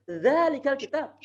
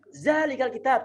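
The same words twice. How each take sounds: First: Dh in "Zalikal kitab"; correct dh sound. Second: "Zalikal" said with a buzzing z; z in "Zalikal kitab"; wrong z sound. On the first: Teacher gives the correct form after the wrong one. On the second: Teacher quotes how students say it wrongly. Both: Shown as a demonstration.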